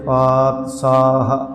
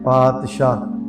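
First: The middle consonant is a plain s sound. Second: The middle consonant is an sh sound. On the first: The speaker calls it right. "ਸੋ ਇਸ ਵਾਸਤੇ" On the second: The speaker calls it wrong. "ਸਾਡੇ ਆਦਤ ਸੁਭਾਅ ਕਰਕੇ ਸ਼ਾਹ ਪਾਤਸ਼ਾਹ ਪੜ੍ਹਦੇ ਆ"

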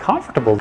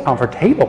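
First: The stress falls on the first syllable, 'com'. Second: The stress falls on the last part, 'table'. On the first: The speaker calls it right. "instead of comfortable, comfortable, comfortable" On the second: The speaker calls it wrong. "they say comfortable, comfortable, comfortable ... you shouldn't be saying comfortable, stressing the table"

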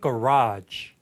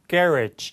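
First: It is said with an American pronunciation. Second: It is said British-style, stressing the first syllable. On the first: "미국식 발음은 garage" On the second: "영국인 호주는 이름절에 강세되면서 garage"

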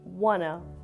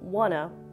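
First: The words are said as one short reduced word. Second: The words are said as one short reduced word.

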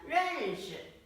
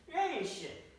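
First: The second syllable is light and unstressed. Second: The second syllable has a sharp falling tone. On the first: "여기서는 경성으로 사용을 합니다" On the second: "원래 시는 사성이에요"

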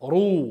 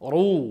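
No difference in how they are said.

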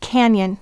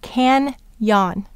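First: The second syllable has a weak, reduced vowel. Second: The second syllable has a full, clear 'yon' vowel. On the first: This is the normal everyday pronunciation. "The next word is canyon" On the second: The sounds are exaggerated to help with spelling. "we're going to exaggerate it to can-yon"

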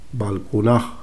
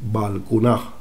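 No difference in how they are said.

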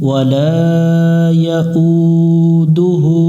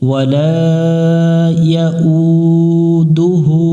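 Both takes have the same delivery.

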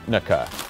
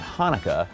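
First: It begins with a harsh, throaty, choking sound. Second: It begins with a soft, plain h sound. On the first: The speaker calls it right. "CH in Hebrew is pronounced like you're choking on something" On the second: The speaker calls it wrong. "it's not Hanukkah"

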